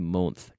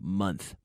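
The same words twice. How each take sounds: First: The vowel sounds like an 'o'. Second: The vowel sounds like 'uh' in funny. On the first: The speaker calls it wrong. "I'm very tired of hearing people say month" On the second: The speaker calls it right. "we pronounce it the same as funny"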